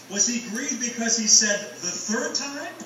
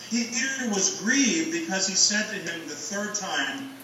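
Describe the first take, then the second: First: "third" lifted and leaned on in the question; stress on third. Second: Said in the usual way. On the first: Shown as a demonstration. Preacher weighing where the emphasis lies, stressing "third". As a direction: pitch the question up and hit "third". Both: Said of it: "where the emphasis lies in that sentence".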